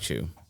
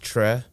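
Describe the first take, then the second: First: The surname sounds like 'chew' with an oo vowel. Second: The surname sounds like 'Trek' without the k. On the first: This is the pronunciation the name's owner prefers. "I prefer Chu because it kind of rolls off of my first name" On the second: This is the original pronunciation of the name. "technically that's not how it's pronounced, it's pronounced Tre"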